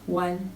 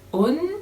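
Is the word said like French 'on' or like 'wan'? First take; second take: like wan; like on. First: It begins with a w and sounds like 'wan'. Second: It sounds like the French word 'on'. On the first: The speaker calls it right. "Ça se prononce comme si c'était un W A N" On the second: The speaker calls it wrong. "des francophones qui vont peut-être lire ça comme on"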